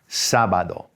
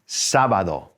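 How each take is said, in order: First: The stress is on the first syllable. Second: The same.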